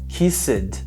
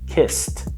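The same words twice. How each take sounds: First: The ending has an extra vowel sound. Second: The ending has no extra vowel sound. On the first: The speaker calls it wrong. "Muitas pessoas falam kissed, mas lembre que não tem esse som de E" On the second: The speaker calls it right. "não tem esse som de E"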